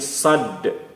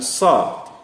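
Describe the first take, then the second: First: The word ends with a bounced d sound. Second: The word ends on an open vowel. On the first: The speaker calls it right. "tapi sad" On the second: The speaker calls it wrong. "bukan sa"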